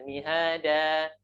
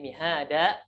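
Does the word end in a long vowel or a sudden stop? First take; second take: long vowel; sudden stop. First: The final vowel is lengthened smoothly. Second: The final vowel is cut off abruptly. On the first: The speaker calls it right. "tapi dialihkan" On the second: The speaker calls it wrong. "kadang ada dihentikan suaranya"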